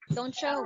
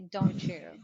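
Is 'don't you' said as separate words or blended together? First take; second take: blended; separate. First: Don't and you blend into one word, doncha. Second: Don't and you are said as separate words. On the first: "it will be pronounced as toncha" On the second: "There are still American people who say"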